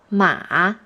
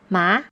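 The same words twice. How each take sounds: First: The pitch falls low then rises again. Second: The pitch starts mid and rises high. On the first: The word means horse. "the third tone is the falling rising tone" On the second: The word means hump. "This is how the second tone sounds"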